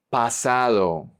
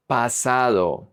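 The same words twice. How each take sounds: The two takes are said the same way.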